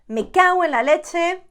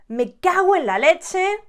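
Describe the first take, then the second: First: The o and e merge quickly, almost a u. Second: The same.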